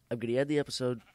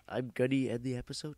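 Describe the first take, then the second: First: Said in the usual way. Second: "episode?" rising like a doubtful question; questioning rise. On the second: Real, not acted. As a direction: ask "I'm gonna end the episode?" with a rising tune.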